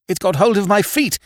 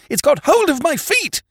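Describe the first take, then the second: First: High panicked cry; second mate in terror, much higher; scared scream. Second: Even higher shrieked repeat; second mate screaming, pitch far higher; terrified scream. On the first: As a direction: cry out as it grabs you. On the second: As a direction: shriek it as the panic peaks. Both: A narrator's reading. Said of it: "he screamed".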